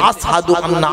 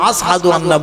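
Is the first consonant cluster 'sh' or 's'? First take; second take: s; s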